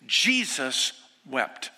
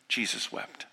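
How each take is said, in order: First: Very slow, each word drawn out; slow solemn Jesus wept. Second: Breathy whisper of the two words; Jesus wept. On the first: Preacher to congregation, slow and solemn. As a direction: lay the two words down slowly. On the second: Preacher to the grieving, whispered softly. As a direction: let it fall to a near whisper. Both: Shown as a demonstration.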